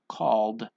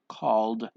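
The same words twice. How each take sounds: First: The word ends in a d sound. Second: The word ends in a d sound.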